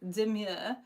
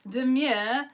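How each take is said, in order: First: "Demure" drawn out, ending in a coy rise; trendy demure. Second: Said in the usual way. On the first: Shown as a demonstration. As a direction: say "Demure" coyly, stretching the vowel up. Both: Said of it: "That's the only way you can say that word".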